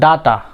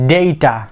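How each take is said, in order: First: The first syllable does not sound like 'day'. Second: The first syllable sounds like the word 'day'. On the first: The speaker calls it wrong. "আমরা অনেক সময় কি বলে থাকি" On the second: The speaker calls it right. "Right pronunciation is"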